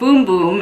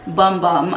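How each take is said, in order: First: The vowel is an 'oo' sound, as in boom. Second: The vowel is an 'uh' sound, as in bum. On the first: The speaker calls it right. "It is pronounced boom boom in Portuguese" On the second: The speaker calls it wrong. "It is not pronounced bum bum"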